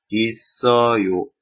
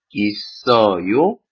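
First: The pitch falls at the end. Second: The pitch rises at the end. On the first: It states that something exists. "있어요是程序句" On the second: It asks whether something exists. "句子后面的语调一点高的时候，一般疑问句，比如说있어요是疑问句"

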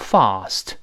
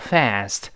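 First: It is said with a British vowel. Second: It is said with an American vowel. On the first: "英式发音都用fast" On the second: "这标准的美音了"

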